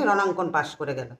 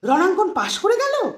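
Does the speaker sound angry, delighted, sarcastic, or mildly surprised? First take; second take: angry; delighted. First: It sounds angry. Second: It sounds surprised and very happy. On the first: The passing is resented. "এখানে কিন্তু রাগ" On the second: The passing was unexpected and is welcome news. "অবাক সাথে আনন্দ।"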